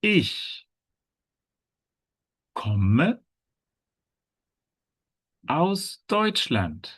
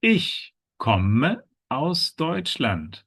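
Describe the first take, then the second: First: Very long pauses between ICH, KOMME and AUS DEUTSCHLAND; feed learners the sentence piece by piece; high ICH, pause, KOMME, pause, slow AUS DEUTSCHLAND; word-by-word model. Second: Slow, careful ICH KOMME AUS DEUTSCHLAND as one sentence; high ICH, then evenly spaced slow words; slow model sentence. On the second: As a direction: model the whole sentence slowly for learners. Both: Shown as a demonstration. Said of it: "how does each character introduce".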